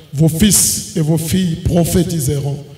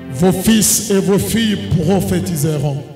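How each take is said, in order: No difference in how they are said.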